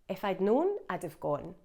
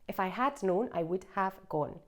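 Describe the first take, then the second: First: The words are squeezed together into short contractions. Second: Every word is said in full, without contractions.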